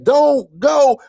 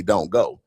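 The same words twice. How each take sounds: First: High-pitched desperate plea; imitated screaming. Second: Said in the usual way. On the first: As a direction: cry it out high, mimicking a frantic friend. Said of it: "Then he starts screaming this". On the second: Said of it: "anytime somebody say that on a movie".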